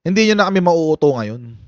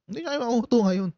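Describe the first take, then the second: First: Said in the usual way. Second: Fast. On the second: Shown as a demonstration. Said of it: "restated fast and soft".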